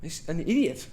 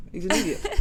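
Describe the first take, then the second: First: Said in the usual way. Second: Says it again through a laugh; laughing at Khalid's foolishness. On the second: Real, not acted. Repeating "He's an idiot" to the co-host with a laugh.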